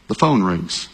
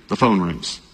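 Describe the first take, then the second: No difference in how they are said.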